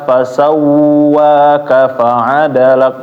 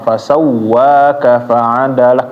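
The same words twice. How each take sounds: First: The doubled w sound is held long. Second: The doubled w sound is pressed but short. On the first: The speaker calls it wrong. "Jangan sampai wa-nya ini juga ditahan ketika tasdid ... Enggak boleh" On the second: The speaker calls it right. "Tapi cuma ditekan doang ... jangan lama-lama"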